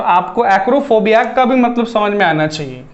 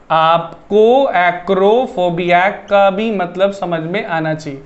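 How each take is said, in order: First: Said in the usual way. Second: Slow "आपको acrophobia" word by word; slow, deliberate repeat. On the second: Shown as a demonstration. Teacher making sure students catch the related word, slow and deliberate. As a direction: spell it out slowly for the class.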